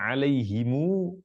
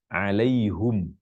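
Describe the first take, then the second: First: It ends in himu, with a long final u. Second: It ends in hum, with u before m. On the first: "mu didomahkan mimnya dan baca panjang" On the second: "baca alaihum, bukan him"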